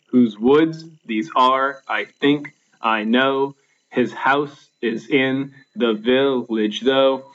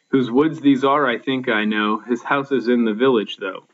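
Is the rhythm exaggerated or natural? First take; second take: exaggerated; natural. First: Every stressed beat is hit hard and evenly. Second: The beats are light with a natural speaking flow.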